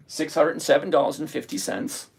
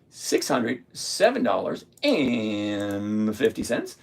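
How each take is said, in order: First: Said in the usual way. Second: Slow repeat. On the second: Shown as a demonstration. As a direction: lower and slow, drawing the figure out. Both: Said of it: "same figure said twice".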